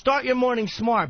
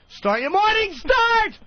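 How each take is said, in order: First: It is said calmly, without exclamation. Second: It is said excitedly, like an exclamation.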